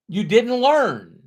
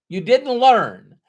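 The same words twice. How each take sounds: First: Slow, firm stress on "learn"; deliberate "learn" said firmly; firm emphasis. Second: Louder, slower "You didn't learn" with "learn" driven down; emphatic repeat landing on "learn"; stronger emphasis. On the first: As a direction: land "you didn't learn" slowly and firmly. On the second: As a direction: hammer home "learn" louder this time. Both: Shown as a demonstration.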